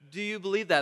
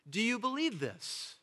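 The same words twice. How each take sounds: First: Said in the usual way. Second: Softer, higher, tender asking; gentle question. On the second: Acted. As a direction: ask it gently, as Jesus to Martha. Jesus' question, quoted gently.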